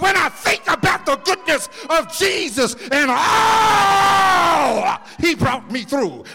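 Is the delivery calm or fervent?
fervent. It is said with fervent, intense emotion. The speaker has lived through hard times. The speaker calls it right. "I've got to say it like this"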